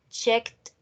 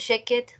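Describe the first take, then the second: First: The ending is a single 't' sound. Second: The ending is an extra syllable, like 'id'. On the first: The speaker calls it right. "Con T, terminación en T" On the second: The speaker calls it wrong. "No van a decir"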